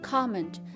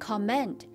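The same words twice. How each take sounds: First: The stress is on the first syllable. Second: The stress is on the second syllable. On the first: The speaker calls it right. "重音在最前面comment" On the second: The speaker calls it wrong. "重音在后面变成comment"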